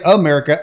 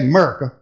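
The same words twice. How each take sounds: First: The word is said in a plain standard way. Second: The word is said in a cowboy drawl. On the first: "I don't say America" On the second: "I'm a cowboy, so ... I just say America"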